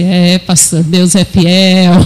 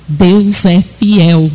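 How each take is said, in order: First: "Deus é fiel" low and drawn out with a chuckle; changed intonation. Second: "Deus é fiel" slow and emphatic, each word held; low, deliberate "Deus é fiel", weight on "fiel"; changed intonation. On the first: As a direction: stretch "fiel" out slowly in a low, lazy fall. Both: Retold or imitated. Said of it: "Ela mudava a entonação".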